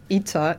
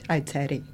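First: The word is pronounced the English way. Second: The word is pronounced the Italian way. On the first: "I don't know how to pronounce it" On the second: "it's kind of Italian way of pronouncing it"

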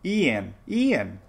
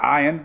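First: The name begins with an 'ee' sound. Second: The name begins with an 'eye' sound. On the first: The speaker calls it right. "It's Ian" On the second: The speaker calls it wrong. "Not Ion"

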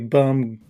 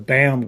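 First: The vowel sounds like the one in 'bum'. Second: The vowel sounds like the one in 'bam'. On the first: The speaker calls it wrong. "Don't say bum" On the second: The speaker calls it right. "He's a BAM gardener"

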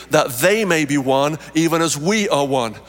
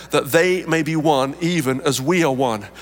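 No difference in how they are said.

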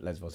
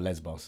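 First: The name is said the Greek way. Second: The name is said the local English way. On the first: This is how it is said in Greek. "Lesbos is the Greek" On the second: This is how people say it locally. "this is what we say here"

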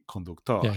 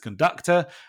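First: It is pronounced with Spanish sounds and stress. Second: It is pronounced with English sounds and stress. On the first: It refers to a driver. "in Spanish, we would say conductor" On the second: It refers to someone who leads an orchestra. "in English, we pronounce this conductor"

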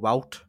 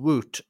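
First: The vowel sounds like 'ow'. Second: The vowel sounds like 'oo'. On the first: "they go wout" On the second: "instead of saying woot"

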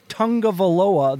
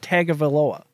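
First: The name has an added 'un' sound. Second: The name has no added 'un' sound. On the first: This is how most people say it. The speaker calls it wrong. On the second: This is the pronunciation-guide version. The speaker calls it right.

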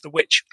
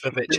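First: The title is said as plain 'witch'. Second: The title is said as 'vavitch'. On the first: "I think you'll find it's pronounced The Witch" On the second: "It's spelt Vavitch, so it's Vavitch"

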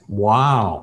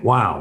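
First: The word is said warmly, with deep empathy. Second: The word is said casually, without real feeling. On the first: The listener feels truly heard and understood. The speaker calls it right. "If you say it with full empathy in context" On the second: It conveys nothing to the listener. The speaker calls it wrong. "you could just easily say, wow, what'd you do then? And it's nothing"

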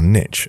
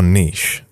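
First: It is said the American way. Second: It is said in the speaker's own British way.

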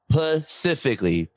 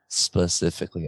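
First: The word starts without the s sound. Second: The word starts with the s sound. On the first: The speaker calls it wrong. "let me make sure I say it right" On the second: The speaker calls it right. "I know"

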